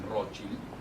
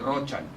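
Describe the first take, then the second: First: The name is pronounced the German way. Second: The name is pronounced the common, non-German way. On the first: This is how the family itself says the name. "es Rothschild, porque somos de origen alemán" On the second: This is how most people say the name. "todo el mundo dice Rothschild"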